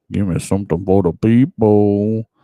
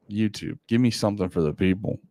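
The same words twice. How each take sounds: First: Calling out louder to the screen; a louder plea to the algorithm. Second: Said in the usual way. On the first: Acted. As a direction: call it out, louder this time. Calling out to YouTube.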